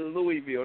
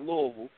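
First: The first part is said like the name Louis. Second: The first part is reduced in the local way. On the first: The name honors the king it was named after. The speaker calls it right. "I said Louisville, not Louisville ... named after King Louis" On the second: This is how people who live there say it. The speaker calls it wrong. "they all say Louisville"

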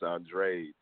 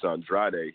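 First: The name is said in an Americanized way. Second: The name is said in its original, non-American way. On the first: This is how the fighter himself says it. "which is like American" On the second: This is how people expect the name to be said. "he's not saying his name is Andrade"

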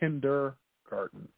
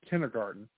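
First: The D sound in the middle is heard. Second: The D sound in the middle is dropped. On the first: The speaker calls it right. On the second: The speaker calls it wrong.

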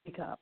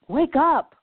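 First: It is said calmly, without force. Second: It is said loudly and forcefully.

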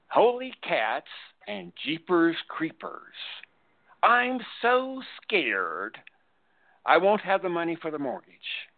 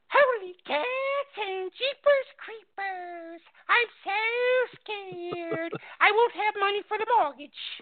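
First: It is said in a normal voice. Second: It is said slowly, loudly, in a silly voice.

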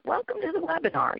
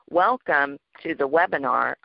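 First: The voice is lively and high in energy. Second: The voice is flat and low in energy. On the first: The speaker calls it right. "maybe a little higher pitch or a little faster... add some vocal energy to it" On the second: The speaker calls it wrong. "instead of it being"

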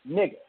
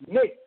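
First: It sounds urging, with a stretched first syllable. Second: It sounds excited and celebratory. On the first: The speaker urges the other to comply. "an imperative suggested by a change in tone. Voice that slightly stretches the first syllable" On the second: The speaker celebrates the other's good news. "It is meant to emphasize or celebrate"

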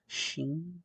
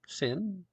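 First: The name begins with an sh sound. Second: The name begins with a plain s sound. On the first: "I'm presuming that's the pronunciation" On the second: "it's not an H, Sin, is it Sin?"

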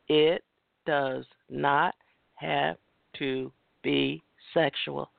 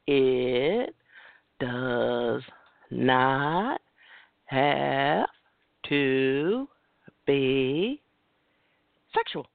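First: It is said at normal speed. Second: It is said more slowly.

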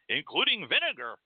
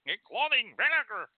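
First: The voice sounds plain and ordinary. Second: The voice sounds puckered, as if tasting something sour.

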